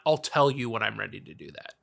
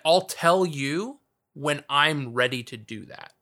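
First: It flows on without a pause after "you". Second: There is a pause after "I'll tell you".

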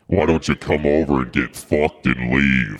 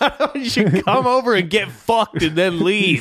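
First: It is said in a sinister put-on voice. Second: It is said in his normal voice.

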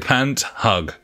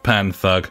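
First: The name splits into pant plus hug. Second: The name splits into pan plus thug. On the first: It sounds like pants that hug. "Pant-hug instead of Panthug" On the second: It sounds like a thug. "instead of Panthug"

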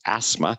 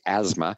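First: It is pronounced the New Zealand way. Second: It is pronounced the North American way. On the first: The speaker calls it right. "the correct pronunciation in New Zealand is asthma" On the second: The speaker calls it wrong. "I always say asthma"

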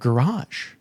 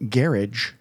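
First: The word is said the French-like way. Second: The word is said the English way. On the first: "instead of garage" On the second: "why do English people say garage"

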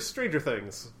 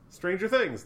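First: The stress falls on the word stranger. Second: The stress falls on the word things. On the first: It means things that belong to strangers. The speaker calls it wrong. "some people say Stranger Things. Like things that belong to strangers" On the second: It names the show's strange events. The speaker calls it right. "There we go. That's right"

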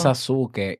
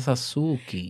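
First: The name ends with an 'eh' vowel sound. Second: The name ends with an 'ee' vowel sound. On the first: This is how most people say the name. The speaker calls it wrong. "dice Sasuke" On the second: This is how the name is really pronounced. The speaker calls it right. "se pronuncia Sasuki"

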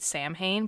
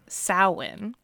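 First: Every written letter is sounded out. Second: Several of the written letters are not sounded. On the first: The speaker calls it wrong. "you have pronounced it Samhain because you had never heard it" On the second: The speaker calls it right. "but pronounced Samhain"

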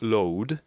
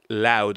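First: The vowel sounds like 'oh'. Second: The vowel sounds like 'ow'. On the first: The speaker calls it wrong. "not load" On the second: The speaker calls it right. "you're supposed to say OW"

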